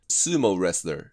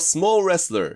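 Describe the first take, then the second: First: The first vowel is long, with a gliding o. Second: The first vowel is short, sounding like small. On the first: The speaker calls it right. "英語の発音はこうです。" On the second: The speaker calls it wrong. "ロングU がないんですよ"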